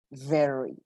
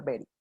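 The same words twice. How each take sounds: First: Teeth on the lip for "very", R from the back; "very" with a buzzing V and smooth R; correct American pronunciation. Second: "very" with a B sound and rolled Spanish R; "very" said like "beri" with a tapped R; wrong pronunciation. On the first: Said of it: "Tiene que sonar". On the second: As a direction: show the forbidden way to say "very". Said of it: "Ni por equivocación puede sonar very". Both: Shown as a demonstration.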